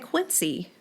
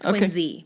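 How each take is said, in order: First: It uses the pronunciation not used locally. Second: It uses the local Massachusetts pronunciation. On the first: This is how outsiders say the name. The speaker calls it wrong. "We don't say Quincy in Boston" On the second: This is how locals say the name. The speaker calls it right. "In Massachusetts. It's Quincy"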